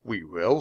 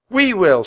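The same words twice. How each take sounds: First: Unsure question, rising at the end; hesitant, questioning boy; doubtful echo. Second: Put-on high, loud, eager girl's shout; volunteer at the top of your voice. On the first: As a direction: echo it back in disbelief. Jack doubtfully echoes Annie's shout. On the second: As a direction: bold high-pitched call. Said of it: "shouted Annie". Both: A narrator's reading.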